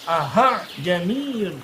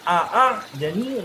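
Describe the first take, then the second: First: The second hamza becomes an h sound. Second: The second hamza is a full glottal stop. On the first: "berubah dari hamzah berubah jadi H, salah" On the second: "Bacaan yang salah itu adalah ketika satu semuanya dibaca hamzah murni. ... itu salah"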